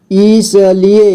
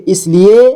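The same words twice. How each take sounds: First: "इसलिए" split as i-sa-li-e; beginner's reading of "इसलिए" as i-sa-li-e; sounded out letter by letter. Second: Said in the usual way. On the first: Shown as a demonstration. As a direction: voice each syllable of "इसलिए". Teacher sounds out, then reads whole.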